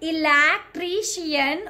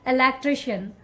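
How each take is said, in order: First: Every syllable gets equal heavy stress. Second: It flows smoothly with one main stress. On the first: The speaker calls it wrong. "We can't stress on all the syllable" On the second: The speaker calls it right. "very smooth"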